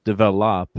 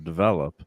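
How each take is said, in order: First: Develop said as "deh-veh-LOP"; dad's French-style pronunciation. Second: Said in the usual way. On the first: Retold or imitated. Speaker imitates French dad, develop stressed on LOP. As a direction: stress the last syllable of develop. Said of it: "he'd s-, always say". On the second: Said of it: "instead of develop".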